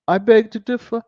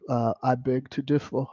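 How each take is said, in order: First: Southern dialect. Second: Said in the usual way. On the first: Shown as a demonstration. To the viewers, mock Southern dialect raised and louder. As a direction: lay on the dialect, pitched up and louder. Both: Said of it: "I try to do all the little dialect".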